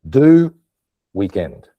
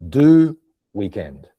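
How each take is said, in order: The two takes are said the same way.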